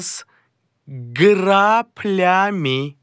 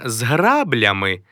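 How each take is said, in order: First: The word is said with a p sound. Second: The word is said with a b sound. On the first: The speaker calls it right. "а з граплями" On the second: The speaker calls it wrong. "Не з граблями"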